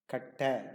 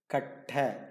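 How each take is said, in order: First: The middle t sound is long and stressed. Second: The same.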